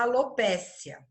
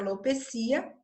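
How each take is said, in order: First: The stress falls on the syllable 'pe'. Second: The stress falls on the syllable 'ci'. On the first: The speaker calls it wrong. "não existe um acento nessa palavra para que ela seja a alopécia" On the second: The speaker calls it right. "a forma correta seria alopecia"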